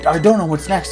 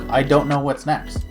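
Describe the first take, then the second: First: It sounds excited and eager. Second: It sounds frustrated and baffled.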